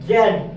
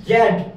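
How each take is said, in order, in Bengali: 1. অক্ষরটি 'zed' হিসেবে উচ্চারিত হয়, ব্রিটিশ ধাঁচে। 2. অক্ষরটি 'zed' হিসেবে উচ্চারিত হয়, ব্রিটিশ ধাঁচে।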